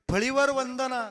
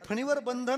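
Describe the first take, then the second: First: It is pronounced 'phalivar vandana', with l and v. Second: It is pronounced 'phanivar bandhan', with n and b. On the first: It is heard as a person named Vandana on a shelf. The speaker calls it wrong. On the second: The speaker calls it right.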